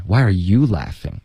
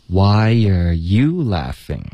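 First: 重音落在 "Why"，语调平常; 按正常语气强调 "Why"; 普通重音. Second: 慢读，把 "you" 重重地突出; 质问地强调 "you"，不满他假笑; 重音在 you. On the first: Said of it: "正常情况下，就是，就是why". (正常说法，重音在 "Why") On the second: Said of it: "应该是有一个重音在you上". (老师慢速示范，重读 "you") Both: Shown as a demonstration.

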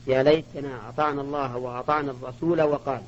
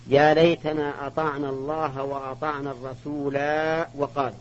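First: الرسول recited as الرسولا, ending on a long open ā; reading with the alif. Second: الرسول recited short, ending on a closed l with no alif; reading without the alif. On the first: Teacher demonstrating the reading that keeps the alif, الرسول said rasūlā. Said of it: "قراءة بإثبات الألف وصلا ووقفا". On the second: Teacher demonstrating the reading that drops the alif, الرسول said rasūl. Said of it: "وقراءة بحذفها وصلا ووقفا". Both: Shown as a demonstration.

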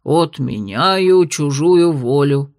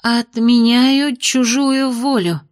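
First: Отменяю чужую волю, slow with weight on чужую; slow incantation. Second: Отменяю чужую волю, slow and tentative, rising higher; unsure incantation. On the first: Shown as a demonstration. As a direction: chant Отменяю чужую волю slowly, stressing чужую. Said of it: "Надобно сказать". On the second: Acted. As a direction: try Отменяю чужую волю hesitantly, slowly. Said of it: "не слишком уверенно проговорила Майя".

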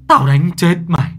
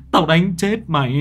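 First: Loud, higher furious yell; furious shout. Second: Louder, higher angry threat, a bit less than the first; angry repeat. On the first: Grandfather screams at Nhi while slapping her, furious. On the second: Grandfather repeats the threat at Nhi, still angry. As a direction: hammer the threat home again. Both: A narrator's reading. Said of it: "ông vừa vả ông vừa chửi".

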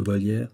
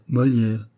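First: "Molière" said with a V-like first sound, as Volière; first consonant of "Molière" slips from M to V; mistaken name. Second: "Molière" said properly with an initial M; "Molière" as a short correction, starting on M; name correction. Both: Acted. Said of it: "Oui, Molière, c'est juste".

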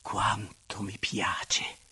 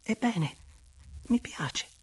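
First: Slow, lower, airy exclamation of pleasure; drawn-out, breathy swoon; long-breathed delight. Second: High, airy, hesitant admission; bashful little confession to a lover; almost timid. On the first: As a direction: sigh it out slowly, savouring every word. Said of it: "mettendo un lungo respiro". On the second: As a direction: offer it shyly, high-pitched, with a pause before the end. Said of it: "quasi timida". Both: Acted.

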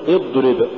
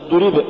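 First: اضرب with a brief dad; moderately held dad in اضرب; balanced dad. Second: اضرب with the dad held long; exaggerated heavy d before the r of اضرب; overdone softness. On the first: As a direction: say اضرب without dragging the heavy d. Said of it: "قل". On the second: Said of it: "ولا تقل". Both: Shown as a demonstration.

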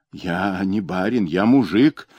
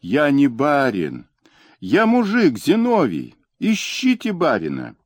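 First: Lightly squeaky wailing plea. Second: High, desperate yelling; frantic scream. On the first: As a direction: squeal it out like a cornered man. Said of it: "вопил он писклявым голосом". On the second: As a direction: scream for your life, pleading. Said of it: "истошно закричал". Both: A narrator's reading.

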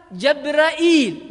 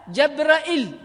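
First: جبرائيل with a glottal stop before a long "eel"; with hamza and ya. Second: جبرائيل with a glottal stop and short final "il"; hamza, no ya. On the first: Teacher giving the next reading, جبرائيل with hamza and long ya. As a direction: say جبرائيل as "jab-ra-'EEL". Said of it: "بالهمزة". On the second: Teacher dropping the ya, جبرائيل with short final vowel. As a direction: say جبرائيل as "jab-ra-'IL". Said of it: "احذف الياء". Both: Shown as a demonstration.

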